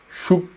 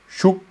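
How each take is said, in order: No difference in how they are said.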